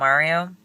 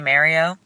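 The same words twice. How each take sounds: First: It is said in a standard accent. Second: It is said in a Long Island accent. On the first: This is how others say it. "not Mario" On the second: This is how Long Islanders say it. "We also say Mario"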